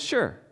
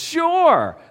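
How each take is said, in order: First: It is said flatly, without enthusiasm. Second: It is said with enthusiasm.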